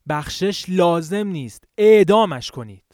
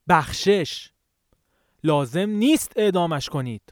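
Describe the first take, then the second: First: The stress falls on the second and fourth words. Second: The stress falls on the first and third words. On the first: The person should be executed, not pardoned. "در حالت اول تأکید روی دو کلمه لازم و اعدام" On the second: The person should be pardoned, not executed. "در حالت دوم تأکید یا آکسان روی دو کلمه بخشش و نیست بود"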